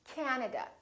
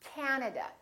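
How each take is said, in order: First: The first vowel is long. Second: The first vowel is long.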